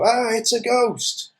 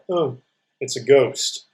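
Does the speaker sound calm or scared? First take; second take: scared; calm. First: It is said in a scared, excited way. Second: It is said calmly, without strong feeling.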